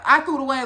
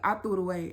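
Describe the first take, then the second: First: It is said boldly, in a defiant tone. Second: It is said quietly, in a timid tone.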